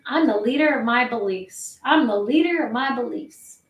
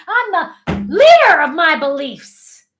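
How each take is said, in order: First: Slumped state. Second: Loud, high, slow and emphatic; like you mean it. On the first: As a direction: say it slouched back, without real conviction. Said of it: "in this kind of state". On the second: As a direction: drive the words home with full conviction. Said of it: "say it like you mean it". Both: Shown as a demonstration.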